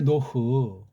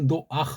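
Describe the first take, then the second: First: Only an o vowel, then a final h sound. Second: An extra a vowel before the final h sound. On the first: This is the original Hebrew form. The speaker calls it right. "요 말이 탁 할 때 생각나는 게 노흐잖아요" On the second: Foreigners added a vowel they could not pronounce without. The speaker calls it wrong. "모음 부호 감도 안 되는 걸 집어넣어서"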